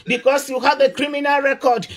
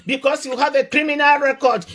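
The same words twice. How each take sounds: The two takes are said the same way.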